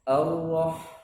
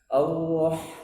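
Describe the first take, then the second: No difference in how they are said.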